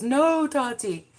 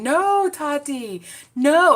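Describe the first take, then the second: First: Slow, drawn-out mimic of the meme line; hint of a wailing meme voice; mock "No, Tati" quote. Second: High, slow, loud meme voice; mock "No, Tati" ringtone. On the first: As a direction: stretch out "No, Tati" like the viral clip. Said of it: "The funniest part was". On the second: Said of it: "to have your phone saying".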